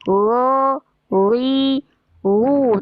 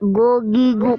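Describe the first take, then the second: First: The consonant is a soft, continuous friction sound. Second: The consonant is a hard stop with full closure. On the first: The speaker calls it right. "hanya hampir menyentuh" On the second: The speaker calls it wrong. "Tidak gogi gu. Kalau itu jadi menyentuh langit-langit"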